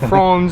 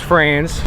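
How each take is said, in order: First: The name is said with a German pronunciation. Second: The name is said with a local Baltimore pronunciation. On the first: This is how it is said in Germany. "I'm sure they say Franz over in Germany" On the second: This is how it is said locally in Baltimore. "But in Baltimore, it's France"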